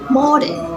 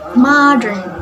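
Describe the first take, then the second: First: It is said in an Australian accent. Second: It is said in an American accent. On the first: "In Australian accents" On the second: "In American accent"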